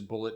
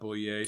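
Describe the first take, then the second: First: The name sounds like the word bullet. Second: The name has a fancy French-like ending. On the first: The speaker calls it right. "it actually is Bullet" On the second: The speaker calls it wrong. "not Boulier, so I'm not as fancy as I thought"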